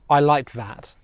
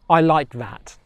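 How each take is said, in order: No difference in how they are said.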